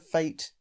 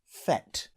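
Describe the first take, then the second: First: The vowel sounds like the one in 'late'. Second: The vowel sounds like the one in 'let'. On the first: "having grown up only hearing fate" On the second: "the American pronunciation"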